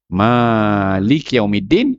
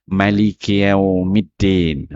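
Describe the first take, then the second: First: The vowel after the M is drawn out long. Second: The vowel after the M is kept short. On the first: This follows the reading marked with the small sign. "ada tanda kecil tu" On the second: This follows the reading without the small sign. "Dan juga boleh dibaca"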